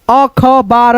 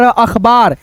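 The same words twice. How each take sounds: First: अखबार broken up as अ-ख-बार; slow, separated reading of अखबार; split into parts. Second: Said in the usual way. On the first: Shown as a demonstration. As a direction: sound out अखबार piece by piece, अ, ख, बार. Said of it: "दो भागों में divide करके". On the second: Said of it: "उसके बाद से बोल देते हैं".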